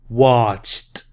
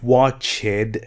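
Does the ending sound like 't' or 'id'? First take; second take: t; id. First: The ending is said as a short 't' sound. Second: The ending is said as an extra syllable 'id'. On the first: The speaker calls it right. "ED sounds like T" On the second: The speaker calls it wrong. "Not watched"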